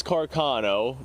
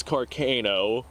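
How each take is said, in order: First: Carcano with an American car-KAH-no; American pronunciation. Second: Carcano with a long ay, car-KAY-no; European pronunciation. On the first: Contrasting American and European sounds, American Carcano. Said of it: "So here it's". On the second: Contrasting American and European sounds, European Carcano. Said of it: "people over in Europe who call it". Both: Shown as a demonstration.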